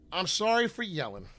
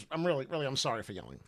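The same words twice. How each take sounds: First: Apology said through a laugh, half joking. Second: Softer, lower and earnest, no laugh; mean it this time, quietly; sincere apology. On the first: Vlogger apologizes to followers for his rant, laughing. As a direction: laugh it off while saying sorry. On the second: Vlogger apologizes to followers for yelling, softly sincere. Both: Real, not acted. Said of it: "I mean it".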